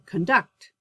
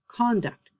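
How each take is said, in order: First: The stress is on the second syllable. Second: The stress is on the first syllable. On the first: It is used as a verb. "But if it's my verb, I would say conduct" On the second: It is used as a noun. "If the word is a noun, the stress is on the first syllable"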